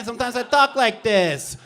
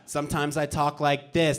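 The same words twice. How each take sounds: First: Higher-pitched take; high-toned comic character voice. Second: Lower, softer take; low-toned comic character voice. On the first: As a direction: lift the whole line into an upper tone. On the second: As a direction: drop the whole line into a lower tone. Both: Shown as a demonstration. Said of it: "Bobby Two Tones".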